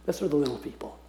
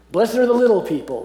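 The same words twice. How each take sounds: First: Soft repeat. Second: Higher and louder, announcing "Blessed are the little people"; bright proclamation. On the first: Preacher softly repeats his translation of the meek to the class. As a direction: repeat it quietly so it sinks in. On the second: Preacher announces his translation of the meek, high and bright. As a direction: ring out "little people" like good news. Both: Shown as a demonstration. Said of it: "That's how I translate the Old English word meek".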